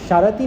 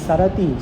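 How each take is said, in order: First: The word begins with an sh sound. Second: The word begins with an s sound. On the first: The speaker calls it wrong. "शरती नहीं" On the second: The speaker calls it right. "दंत स"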